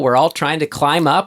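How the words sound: It sounds upbeat and supportive. Everyone is striving together and can support each other. The speaker calls it right. "the positive attitude I like to think I have"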